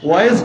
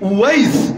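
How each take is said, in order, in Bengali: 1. ওয়া দিয়ে শুরু, আর শেষে জ। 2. উওয়া দিয়ে শুরু, আর শেষে স। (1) "এই উচ্চারণ শোনেন নাই আপনারা?" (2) "শেষে সিন"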